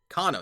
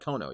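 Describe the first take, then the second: First: The first vowel sounds like 'ah'. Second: The first vowel sounds like 'oh'. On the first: The speaker calls it right. "Kano, not Kono" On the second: The speaker calls it wrong. "not Kono"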